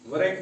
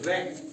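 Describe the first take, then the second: First: The word starts with a w before the r. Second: The word starts directly with an r sound. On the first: The speaker calls it wrong. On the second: The speaker calls it right.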